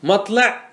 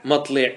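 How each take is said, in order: First: مطلع said "matla", with an a, pitched high; fatha form. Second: مطلع said "matli", with an i, falling; kasra form. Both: Shown as a demonstration. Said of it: "ما ورد بالوجهين".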